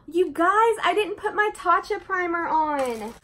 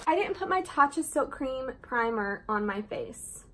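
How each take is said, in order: First: Gasp, then high and loud in alarm; sudden realization. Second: Said in the usual way. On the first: Real, not acted. To her viewers, realizing she skipped the primer: high, loud gasping alarm. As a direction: blurt it out as the mistake hits you.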